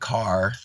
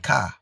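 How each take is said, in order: First: The word ends with a clear r sound. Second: The word ends without an r sound. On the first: This is the usual standard form. "Instead of saying car" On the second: This is the speaker's own dialect form. "we say car"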